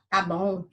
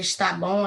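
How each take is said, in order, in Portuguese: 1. A primeira palavra perde a sílaba inicial. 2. A primeira palavra mantém a sílaba inicial. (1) "o está vira tá" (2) "em vez de dizer está bom"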